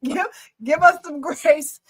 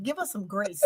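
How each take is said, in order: First: Slower, higher, drawn-out plea; like Angel. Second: A hushed, much softer imitation; like Angel. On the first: Retold or imitated. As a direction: stretch each word like an earnest plea. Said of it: "talk like Angel". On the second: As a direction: drop the voice low to imitate the friend. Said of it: "I'm gonna talk like Angel".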